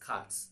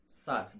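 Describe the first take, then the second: First: The word begins with a k sound. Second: The word begins with an s sound. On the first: The speaker calls it right. "but it is cat" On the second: The speaker calls it wrong. "C A T is not sat"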